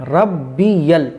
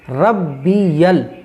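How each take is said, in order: The two takes are said the same way.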